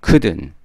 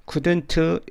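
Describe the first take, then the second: First: "couldn't" ending on n, ku-deun; silent final t. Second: "couldn't" as ku-deun-teu; voiced final t. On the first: Teacher correcting learners, "couldn't" stopped on the n. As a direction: drop the t at the end of "couldn't". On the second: Teacher showing what not to do, "couldn't" with a full final teu. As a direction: add a "teu" syllable to "couldn't". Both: Shown as a demonstration. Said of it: "하지 마시고 여기서".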